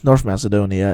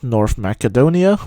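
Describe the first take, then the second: First: The name is pronounced the usual English way. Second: The name is pronounced the native Slavic way. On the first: "not how it's pronounced in English" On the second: "that is like the native Slavic pronunciation"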